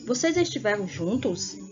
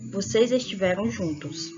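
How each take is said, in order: First: It is said as a question. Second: It is said as a plain statement.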